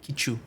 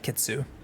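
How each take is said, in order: First: The middle consonant is a 'ch' sound. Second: The middle consonant is a 'ts' sound. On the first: The speaker calls it right. "their correct pronunciation is more like Kichu" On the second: The speaker calls it wrong. "But we called the cat Kitsu"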